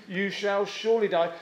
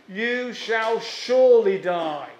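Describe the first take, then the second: First: Said in the usual way. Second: Slow, weighty, SURELY leaned on hard; stressed certainty. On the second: Shown as a demonstration. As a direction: press down on surely like a verdict. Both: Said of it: "That's the emphasis".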